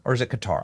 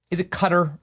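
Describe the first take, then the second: First: Qatar pronounced kuh-TAR; Qatar with a weak start and open "tar" ending; second-syllable stress. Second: Qatar pronounced like "cutter"; Qatar with stress up front and a weak ending; first-syllable stress. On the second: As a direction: say Qatar as KUH-ter. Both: Shown as a demonstration. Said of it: "I know I say it wrong".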